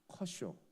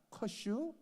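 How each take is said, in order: First: It is said plainly in standard Korean. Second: It is said with a Chungcheong dialect lilt. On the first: It is the pitcher's name. The speaker calls it right. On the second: It sounds like a dialect expression, not a name. The speaker calls it wrong.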